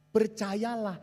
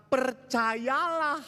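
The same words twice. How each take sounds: First: Said in the usual way. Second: Percayalah drawn out very slow and high; slow stretched percayalah. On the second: Shown as a demonstration. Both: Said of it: "repeated percayalah".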